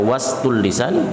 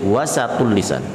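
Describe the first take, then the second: First: No vowel is heard between s and t. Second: A short vowel is heard between s and t. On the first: "Boleh dibaca was tulisan" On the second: "boleh wasatul lisan"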